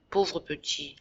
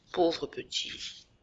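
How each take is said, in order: First: Said in the usual way. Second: Much softer, very slow, fading pity; soft slow echo. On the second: Acted. Jacques pitying his brother, a slow soft fading echo. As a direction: let the repeat die away to a hush. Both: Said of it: "je l'entends dire".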